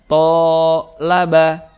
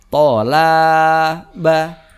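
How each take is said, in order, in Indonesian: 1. Vokal suku kata pertama panjang. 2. Vokal suku kata kedua panjang. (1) "maka to-nya menjadi panjang" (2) "maka la-nya yang panjang"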